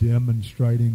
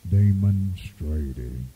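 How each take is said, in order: First: The word is said plainly, without extra emphasis. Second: The word is said with strong, heavy emphasis.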